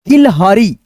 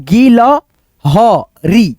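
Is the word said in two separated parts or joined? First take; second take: joined; separated. First: The word is said smoothly as one unit. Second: The word is split into two parts with a break. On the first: "जोड़ के आप बोल सकते हो" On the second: "दो भागों में बांट लेना"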